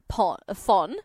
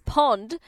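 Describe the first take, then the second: First: The name begins with an F sound. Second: The name begins with a P sound. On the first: The speaker calls it wrong. "I'm going to say" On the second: The speaker calls it right. "But his name is Pond, P-O-N, silent H"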